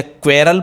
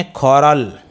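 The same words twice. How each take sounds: First: क्वेरल as "kwerral"; wrong pronunciation. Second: कॉरल as "khorral", no W; right pronunciation. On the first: Teacher quizzing pupils with the wrong option, क्वेरल as "kwerral". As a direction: KW glide opening क्वेरल. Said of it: "तो फिर इसे क्वेरल बोलेंगे". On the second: Teacher offering pupils the right option, कॉरल as "khorral". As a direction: round O after KH in कॉरल. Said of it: "या बोलेंगे कॉरल". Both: Shown as a demonstration.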